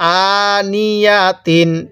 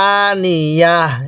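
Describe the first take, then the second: First: The word ends with a t and -in sound. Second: The word ends with an h sound. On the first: The reading continues without stopping. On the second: The reader stops at this word.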